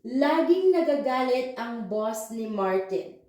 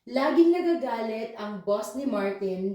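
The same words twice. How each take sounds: First: It is read at a slow, careful pace. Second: It is read at a fast, natural pace. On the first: "let's do it slowly" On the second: "I am going to read it normally first, but I know it's fast for you"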